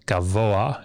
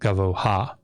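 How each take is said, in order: First: The ending glides into ah with no h sound. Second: An h sound is heard before the ah. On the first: The speaker calls it right. "So it's gavoa" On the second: The speaker calls it wrong. "It's not gavoha"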